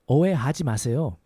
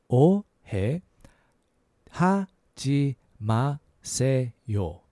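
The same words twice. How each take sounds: First: The phrase is said at a quicker pace. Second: The phrase is said slowly and carefully.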